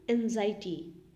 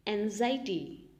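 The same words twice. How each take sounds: First: Said in the usual way. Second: Slow. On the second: Shown as a demonstration.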